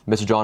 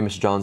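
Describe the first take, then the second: First: The voice is projected, lively and varied in pitch. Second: The voice is flat, hesitant and low in energy. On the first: It captures the listener's attention. The speaker calls it right. "I'm projecting my voice. My voice is dynamic" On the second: It sounds like everyone else. The speaker calls it wrong. "It's not smooth"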